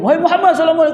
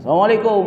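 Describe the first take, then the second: First: The voice is raised higher and louder. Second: The voice is low and calm.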